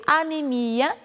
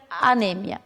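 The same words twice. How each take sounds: First: Anemia stressed on MI; Portuguese pronunciation. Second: Anêmia stressed on NE; Spanish pronunciation. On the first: Teacher giving the Portuguese word, stress on MI. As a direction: stretch the MI of anemia. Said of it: "Em português". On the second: Teacher giving the Spanish word, stress on NE. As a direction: hit NE in anêmia. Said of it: "em espanhol seria". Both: Shown as a demonstration.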